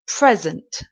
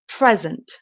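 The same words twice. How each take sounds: First: The stress is on the first syllable. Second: The same.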